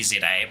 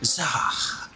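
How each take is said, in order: First: It is said as two separate letter names. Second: It is said as a single syllable. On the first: This is how others say the name. "They say Z A" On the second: This is how the name really sounds. "but it's just like Zah"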